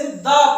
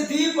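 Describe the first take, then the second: First: The said as "da" with a short open a. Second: The said as "dee" with a long ee. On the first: Teacher to students, showing the other reading: "the" as da. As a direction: say "the" as da, like duh. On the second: Teacher to students, showing one reading: "the" as dee. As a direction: say "the" as dee, rhyming with see. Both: Shown as a demonstration. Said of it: "correct इसकी pronunciation क्या है".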